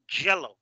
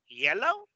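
First: YELLOW said as "jello", falling tune; hard J. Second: YELLOW with a gliding Y and rising tune; contrasting YELLOW, no J; soft Y. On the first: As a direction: answer with a punched J, JELLO. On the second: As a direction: lift YELLOW high, opening on ee. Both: Shown as a demonstration. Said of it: "Saben cuál es la diferencia".

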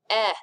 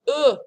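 First: "E" said as an open "eh"; accent grave E sound. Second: "E" said as a loud, higher "uh"; French unaccented E sound. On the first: Teacher shows how the accent changes E, as "eh". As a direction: open the "E" to "eh", as in "bet". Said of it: "an accent grave changes it to E". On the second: Teacher shows class the letter E by itself, as "uh". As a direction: say "E" as a bare, rounded "uh". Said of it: "is pronounced". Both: Shown as a demonstration.

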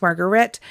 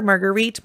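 First: Margaret said as MAR-gret, the plain English form; English-style name. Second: Marguerite said as mar-guh-REET, unsure; French-style name. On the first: Unsure host offering Margaret as the English form. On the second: Unsure host trying Marguerite, three syllables. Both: Shown as a demonstration. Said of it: "I'm not sure".

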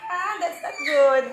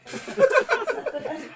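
First: Laughing yelp. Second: High, slow, laughing scold. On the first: Baby pulls hair, pained laugh. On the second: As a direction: scold through real laughter. Baby pulls hair, laughing. (tumatawang pasaway, mataas at mabagal) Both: Real, not acted.

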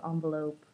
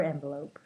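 First: Envelope opening with "on", as in "ON-velope"; ON-velope variant. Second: Envelope opening with "en", as in "EN-velope"; EN-velope variant. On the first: Vlogger reading a word list, envelope said as ON-velope. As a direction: say envelope with an "ah" first vowel. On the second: Vlogger offering the other way, envelope said as EN-velope. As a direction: say envelope with an "eh" first vowel. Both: Shown as a demonstration. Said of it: "again, it depends".

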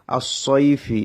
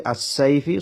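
First: Heavy emphatic sad; correct Arabic sad. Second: Thin light s; wrong light sin. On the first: Teacher reading আসসাইফি the right way, heavy s. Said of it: "এখানে আমি যদি বলি আসসাইফি". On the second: Teacher showing the wrong আসসাইফি, thin s. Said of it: "সদের জায়গায় যদি সিন বলি". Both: Shown as a demonstration.

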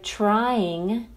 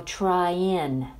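First: "trying" with the final G sounded, /traiŋ/; full -ing ending. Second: "trying" said as "tryin'", ending in a plain n; dropped G. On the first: Teacher models "trying" with the full -ng ending. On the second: Teacher shows the relaxed "tryin'" with no G. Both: Shown as a demonstration. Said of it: "se pronuncia como".

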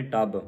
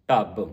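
First: ਟੱਬ with a plain hard t; wrong initial consonant. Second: ਢੱਬ loud with a heavy closing b; dhadda sound, doubled end. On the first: Teacher quoting congregations' misreading, plain t in ਟੱਬ. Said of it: "ਟੱਬ ਨਹੀਂ ਪੜ੍ਹਨਾ". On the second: Teacher giving the congregation the correct sound, emphatic ਢੱਬ. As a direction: punch out ਢੱਬ. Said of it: "ਢੱਡੇ ਦੀ ਆਵਾਜ਼ ਕੱਢਣੀ ਹੈ". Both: Shown as a demonstration.

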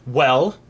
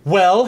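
First: Expectant rising question; kingly prompt, rising at the end; demanding king. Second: Loud, higher rising question; impatient kingly demand, raised voice; insistent demand. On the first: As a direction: demand an answer, restrained. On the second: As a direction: press hard for an answer. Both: A narrator's reading. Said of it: "he demanded".

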